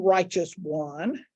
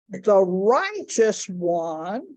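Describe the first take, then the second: First: Slow stress on "righteous one", rising at the end; emphasis on righteous. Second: "the righteous one" very slow, each word spaced, rising on "righteous"; slower, weightier "righteous"; drawn-out righteous. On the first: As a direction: lean on the word "righteous". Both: Shown as a demonstration. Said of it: "three key words in that phrase".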